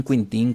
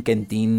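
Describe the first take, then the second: First: Quintín said with a clear i sound, kin-TIN; Quintín pronounced. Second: Quentín said with an e sound, ken-TIN; Quentín pronounced. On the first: Host offering the Spanish-style name Quintín, said with an i. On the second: Host giving the co-host's version Quentín, said with an e. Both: Shown as a demonstration. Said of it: "Ya ustedes pelense si es Quintín".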